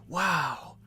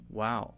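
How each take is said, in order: First: It sounds surprised and taken aback. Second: It sounds flat, neutral and fairly quick.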